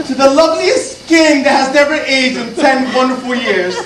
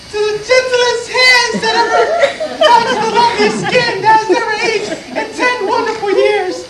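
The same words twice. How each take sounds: First: Said in the usual way. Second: High, singsong falsetto as the wife; wife's toast. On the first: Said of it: "We toast again". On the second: Acted. Wife answers her husband's toast, high falsetto imitation. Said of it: "she, she toasts".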